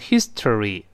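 Each syllable is said separately and fully. "美国人读成history，它分开读"

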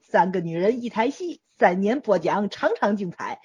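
It is read in Tianjin dialect.

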